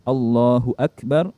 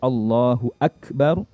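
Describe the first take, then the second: Both takes have the same delivery.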